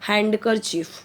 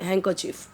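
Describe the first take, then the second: First: The d sound is pronounced in the middle. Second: The d sound is left out entirely. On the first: The speaker calls it wrong. "Wrong होगा" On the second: The speaker calls it right. "यहाँ पे डी silent करके बोलिए"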